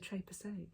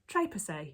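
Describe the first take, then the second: First: The name is said with a French accent. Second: The name is said with an English accent. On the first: "but it's probably the Trépassé" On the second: "If I was going to say it in an English accent"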